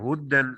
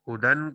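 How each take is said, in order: First: The d sound is held and doubled. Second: The d sound is short and single. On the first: The speaker calls it wrong. "मुशद्दद पढ़ दिया" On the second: The speaker calls it right. "यहां तखफीफ थी"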